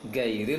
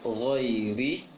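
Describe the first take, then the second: First: It starts with a hard stopped g sound. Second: It starts with a soft throaty rasping sound. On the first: The speaker calls it wrong. "Gairil itu huruf G" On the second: The speaker calls it right. "suara tahanan angin di tenggorokan"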